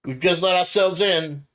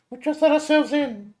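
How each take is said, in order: First: Raised voice into the hall; calling out. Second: High, loud Nami calling out; high girl voice calling. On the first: Player character calls into the mansion, raised voice. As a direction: call out an apology. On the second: Nami calls into the empty mansion, high girl voice. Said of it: "Nami also shouted out". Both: Acted.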